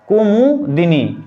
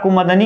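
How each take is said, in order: First: The word is said with an 'i' before 'ni'. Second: The word is said without an 'i' before 'ni'. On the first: The speaker calls it right. "होता है" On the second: The speaker calls it wrong. "आप कुमुदनी कहते कहते"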